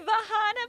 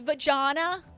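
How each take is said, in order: First: The middle consonant is an H sound. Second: The middle consonant is a J sound. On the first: "is the J like an H" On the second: "It's not H"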